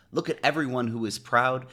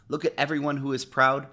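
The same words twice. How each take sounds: The two takes are said the same way.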